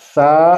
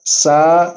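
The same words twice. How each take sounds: First: The consonant is soft without a whistle. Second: The consonant has a sharp whistling hiss. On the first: The speaker calls it right. "सीटी की आवाज के बगैर" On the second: The speaker calls it wrong. "सीटी की आवाज आ रही है"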